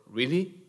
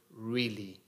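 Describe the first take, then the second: First: "really?" with a rising, doubting tune; really as a question. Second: Said in the usual way. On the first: Shown as a demonstration. Preacher showing the congregation "really?" as a rising question. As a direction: ask "really?" so it lifts at the end. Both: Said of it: "question mark".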